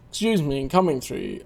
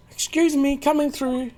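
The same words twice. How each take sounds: First: Lower, plain polite push-through; low-voiced passerby. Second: Much higher, polite squeeze-past voice; high-voiced passerby. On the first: Another character pushing through the crowd, low and polite. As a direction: drop the voice to edge past the crowd. Same line, second character. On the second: A character pushing through the crowd, high and polite. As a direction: lift the voice up to edge past the crowd.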